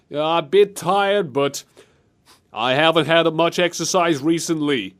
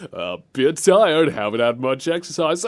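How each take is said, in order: First: Hint of a political impersonation; Donald Trump. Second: Understated imitation of an unbothered leader; chill president. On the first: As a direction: stretch the opening, then pause between phrases. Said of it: "Ghost Squad line in Trump's voice". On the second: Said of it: "how chill this president sounded".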